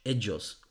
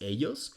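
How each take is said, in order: First: The ll is said like j in judge. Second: The ll is not said like j in judge. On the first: The speaker calls it right. "Just say it with the G in judge" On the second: The speaker calls it wrong. "English speakers always pronounce words like ellos as ellos"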